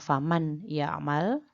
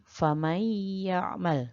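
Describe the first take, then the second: First: The n is pronounced clearly before the y. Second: The n merges into the y with nasalization. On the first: The speaker calls it wrong. "Jadi bukan faman ya'mal, bukan" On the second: The speaker calls it right. "tapi famay ya'mal; dibaca dengan dengung"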